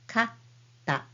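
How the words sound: A short pause comes before the t sound. "with small t, it will be kata"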